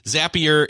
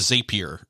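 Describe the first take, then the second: First: The first vowel sounds like the one in 'happy'. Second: The first vowel sounds like the one in 'rapier'. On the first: The speaker calls it right. "Zapier makes you happier" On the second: The speaker calls it wrong. "like a like a sword, a Zapier"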